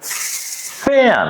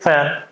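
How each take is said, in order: First: The F sound is held long with air. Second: The F sound is short and clipped. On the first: The speaker calls it right. "You spend some extra time for letter F" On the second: The speaker calls it wrong. "We don't say fan"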